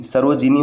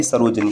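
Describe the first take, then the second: First: सरोजिनी as "sarojinee", full "ji"; correct form. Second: सरोजिनी with middle vowel weakened, "sarojanee"; wrong form. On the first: Teacher giving the correct form, "ji-nee" in सरोजिनी. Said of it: "सरोजिनी होता है". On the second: Teacher citing the rejected form, "ja" in सरोजिनी. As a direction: say सरोजिनी as "saro-ja-nee". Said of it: "न कि". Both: Shown as a demonstration.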